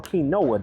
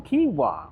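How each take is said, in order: First: Quinoa said kee-NO-uh; quinoa as "kee-no-uh", with a clear NO; alternate pronunciation. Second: Quinoa said KEE-wah; quinoa as "kee-wah", no N sound; alternate pronunciation. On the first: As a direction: say quinoa in three syllables, kee-NO-uh. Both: Shown as a demonstration. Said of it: "depending how you wanna say it".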